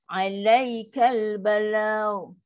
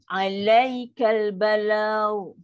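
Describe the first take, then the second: Both takes have the same delivery.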